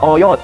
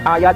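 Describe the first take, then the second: First: The vowels are pronounced as O sounds. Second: The vowels are pronounced as A sounds. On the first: "dibaca oyot" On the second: "huruf apa A itu dibaca O"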